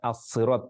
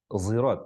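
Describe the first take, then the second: First: The first sound is a heavy emphatic s. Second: The first sound is a heavy z-like sound. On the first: "baca as-sirat pakai shad" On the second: "ada pakai zi"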